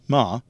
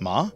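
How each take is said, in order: First: The pitch of the vowel goes down. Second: The pitch of the vowel goes up. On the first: "The ah of ma can go down" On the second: "or it can go up"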